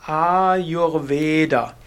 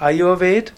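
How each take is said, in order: First: The long vowels and the final a are pronounced. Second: The vowels are short and the final a is dropped. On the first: This is the classical Sanskrit pronunciation. "vom Sanskrit her würde man sagen Ayurveda" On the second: This is how Hindi speakers in North India say it. "die in Nordindien sagen sogar meistens Ayurved ... und lassen das letzte A auch weg"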